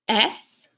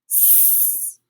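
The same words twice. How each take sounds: First: It is said as the letter name, ess. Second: It is said as a hissing s sound. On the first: "Let's say the name of each of these letters first" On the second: "let's make the sound each letter makes"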